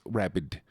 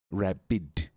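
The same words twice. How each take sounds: First: "Rabid" said as one crisp word; enunciated. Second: "Rabid" split into two careful syllables; over-enunciated. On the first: Streamer correcting rabbits to "Rabid", enunciated. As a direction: say "Rabid" distinctly. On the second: Streamer teaching viewers to say "Rabid", over-enunciated. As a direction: stretch "Rabid" out, each syllable separate. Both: Shown as a demonstration. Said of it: "You must enunciate".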